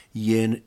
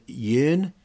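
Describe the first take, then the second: First: Said in the usual way. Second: Yearn said as a puzzled question, rising. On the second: Shown as a demonstration. Vlogger puzzling over the word, says yearn as a question. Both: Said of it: "I don't know what yearn is".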